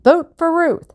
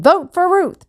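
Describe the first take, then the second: First: High, loud chanted slogan; crowd chant. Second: High, loud chant; rallying call. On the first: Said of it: "People began to chant". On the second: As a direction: pump up the crowd. Babe rallying the crowd. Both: A narrator's reading.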